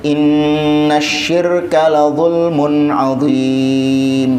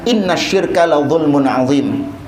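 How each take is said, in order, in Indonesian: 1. Dibaca dengan ketukan berirama dan vokal dipanjangkan. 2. Bacaan biasa, vokal pendek, tanpa pemanjangan berirama. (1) "kalau pakai tajwid ... Ada ketukan-ketukannya, ada matnya" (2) "Nabi baca itu nggak pakai tajwid"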